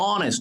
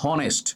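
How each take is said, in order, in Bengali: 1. শব্দটি সরাসরি একটি স্বরধ্বনি দিয়ে শুরু হয়। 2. শব্দটি একটি শ্বাসযুক্ত h ধ্বনি দিয়ে শুরু হয়। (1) "অনেস্ট not হনেস্ট" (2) "not হনেস্ট"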